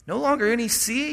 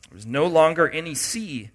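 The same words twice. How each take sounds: First: Rising pitch of disbelief on longer; incredulous question. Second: Said in the usual way. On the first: Shown as a demonstration. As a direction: repeat it as if you can't believe it. Repeats the verse in disbelief.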